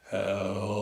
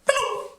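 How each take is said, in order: First: It is said very slowly. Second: It is said very fast.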